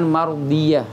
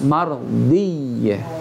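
First: The doubled consonant is said short and single. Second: The doubled consonant is fully held and merged. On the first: The speaker calls it wrong. "jangan mardiyah" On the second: The speaker calls it right. "Harus mardiyah"

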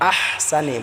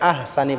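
First: The h sound is deep and heavy. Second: The h sound is soft and light. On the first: The speaker calls it right. "বড় হাটাকে আমরা ভালো করে উচ্চারণ করব" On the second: The speaker calls it wrong. "অনেক ভাই আছে আহসানি বলে, আহসানি হবে না"

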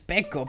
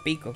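First: The first vowel sounds like 'e'. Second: The first vowel sounds like 'i'. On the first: The speaker calls it wrong. "a lo mejor leéis peco" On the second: The speaker calls it right. "pero se pronuncia pico"

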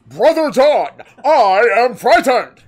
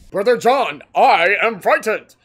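First: It is said in a Gaston-like voice. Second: It is said in a normal voice.

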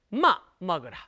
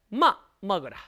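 Both takes have the same delivery.

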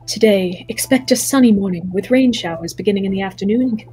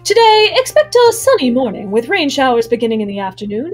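First: It is read in the speaker's ordinary voice. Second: It is read in a different, put-on voice. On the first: The speaker calls it wrong. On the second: The speaker calls it right.

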